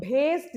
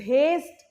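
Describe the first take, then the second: Both takes have the same delivery.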